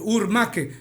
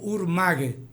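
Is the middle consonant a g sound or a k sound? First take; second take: k sound; g sound. First: The middle consonant is a hard k sound. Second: The middle consonant is a g sound. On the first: The speaker calls it wrong. "ningún cuna dice neigmaque, eh, urmaque" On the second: The speaker calls it right. "yo digo urmague"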